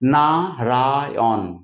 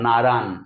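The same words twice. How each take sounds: First: The word is said with three syllables. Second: The word is said with two syllables. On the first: This is the original full form. "তিনটে থেকে" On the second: This is how Bengalis usually say it. "আমরা দুটো করে নিলাম"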